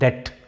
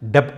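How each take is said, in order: First: No b or p sound comes before the t. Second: A b or p sound comes before the t. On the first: The speaker calls it right. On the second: The speaker calls it wrong. "దీంట్లో బీని పలకూడదు అనమాట. డెప్ట్ అనకూడదు"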